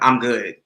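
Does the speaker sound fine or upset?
upset. The tone sounds curt and upset. The person is actually not okay. "if I hit y'all with the second one, y'all know I'm really not good"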